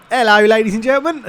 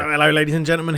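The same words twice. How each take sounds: First: Hammed-up Cockney shout, much higher and louder; mock your own Cockney greeting, fast and belted out; exaggerated Cockney holler breaking into a laugh. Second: Accidental Cockney match greeting; quick, loud greeting slipping into Cockney. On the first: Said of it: "like, proper Cockney". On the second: Real, not acted. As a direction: let a bit of Cockney creep in. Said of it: "proper Cockney, that, wasn't it".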